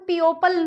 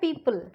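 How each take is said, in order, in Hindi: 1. पहला शब्दांश 'pee-oh' जैसा सुनाई देता है। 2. पहला शब्दांश 'pee' जैसा सुनाई देता है। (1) "इसको हम पियोपल नहीं बोलते हैं" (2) "इसको हम प्रोनाउंस करते हैं पीपल"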